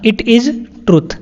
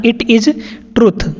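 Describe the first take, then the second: First: "It is truth" said very slowly, word by word; slow clear repetition. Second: Said in the usual way. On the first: Shown as a demonstration. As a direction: spell the sentence out slowly for learners. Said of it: "teacher repeats sentence slowly". (धीरे-धीरे साफ़ बोलना) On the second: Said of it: "teacher repeats sentence".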